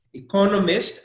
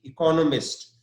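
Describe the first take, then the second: First: Economist louder, co punched; stress on CO. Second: Economist with co stressed; stressed syllable. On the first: Teacher repeats it firmly for the students. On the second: Teacher models the noun after spelling it. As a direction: lean on co in economist. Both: Shown as a demonstration. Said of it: "the stress is on C O".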